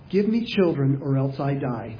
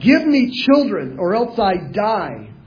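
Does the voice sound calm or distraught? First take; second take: calm; distraught. First: It is said in a calm, plain reading voice. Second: It is said in a distraught, desperate voice. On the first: The speaker calls it wrong. "she probably didn't say it like that" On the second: The speaker calls it right. "She was distraught"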